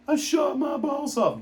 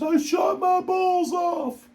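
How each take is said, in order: First: Higher mock voice of the hurt man; wounded man's cry, repeated. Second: Much higher, slow, strained mock voice; wounded man's cry. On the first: Vlogger repeating the injured man's cry for effect, higher mock voice. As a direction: echo the hurt man's line, high and pained. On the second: Vlogger imitating the injured man answering coworkers, high slow strained voice. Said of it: "He goes".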